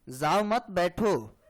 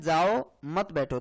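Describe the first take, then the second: First: There is a pause right after मत. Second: There is a pause right after जाओ.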